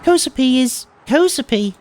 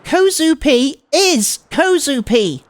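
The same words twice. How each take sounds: First: Put-on high, sweet girl insisting; matter-of-fact cute declaration; cutesy girl voice. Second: Put-on slow, louder, huffy cutesy girl; pissed off. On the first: Transfer student correcting him, high cutesy voice. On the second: Transfer student annoyed at her name being wrong, slow huffy cute voice. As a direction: stamp out each word in cute annoyance. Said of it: "Oh, she's pissed off".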